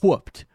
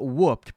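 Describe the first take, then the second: First: The starting H sound is strongly breathed. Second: The starting H sound is weak or absent. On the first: The speaker calls it right. "with an emphasis on the H" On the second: The speaker calls it wrong. "not whooped"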